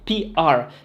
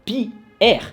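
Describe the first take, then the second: First: Both letters are said the English way. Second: One letter is French, one is English. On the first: The speaker calls it right. "la prononciation anglaise" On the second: The speaker calls it wrong. "on peut pas dire P R. Ça n'a pas de sens"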